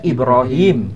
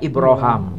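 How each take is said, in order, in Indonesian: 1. Suku kata terakhir diucapkan dengan bunyi i. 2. Suku kata terakhir diucapkan dengan bunyi a. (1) "Bukan dibaca Ibrahim" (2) "tapi dibaca Ibrahim"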